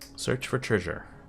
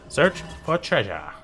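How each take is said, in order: First: It is said in a neutral accent. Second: It is said in a Canadian accent. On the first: The speaker calls it wrong. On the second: The speaker calls it right.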